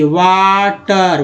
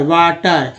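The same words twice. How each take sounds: First: वाटर drawn out very slowly; slow model word. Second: Said in the usual way. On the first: Shown as a demonstration. Teacher models a word for learners, very slowly. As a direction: stretch वाटर out sound by sound. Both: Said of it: "वाटर देखिए".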